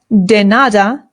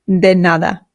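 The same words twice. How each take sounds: First: The d is said hard, English-style. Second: The d is said soft, tongue near teeth. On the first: The speaker calls it wrong. "this is not de nada" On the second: The speaker calls it right. "it is de nada"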